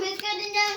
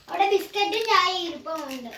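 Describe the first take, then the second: First: Put-on child echoing the words in a scornful singsong; sulky mocking echo; mocking repeat. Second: Said in the usual way. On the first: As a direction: mimic mom's words back to tease her.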